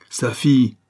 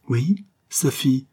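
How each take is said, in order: First: Said in the usual way. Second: Slow, weighted "Oui, sa fille"; forceful repetition. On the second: A narrator's reading. Son confirms to his mother, "sa fille" slow and insistent. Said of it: "répétait avec force".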